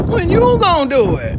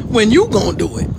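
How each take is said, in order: First: Louder. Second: Said in the usual way. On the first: Shown as a demonstration.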